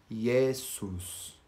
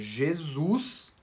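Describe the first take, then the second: First: It starts with a Y sound and an unvoiced S. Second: It starts with a J sound and a voiced S. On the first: "em latim, fica ... O J se transforma em I" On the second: "na palavra"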